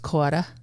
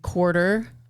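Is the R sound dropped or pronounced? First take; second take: dropped; pronounced. First: The R sound is dropped. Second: The R sound is pronounced.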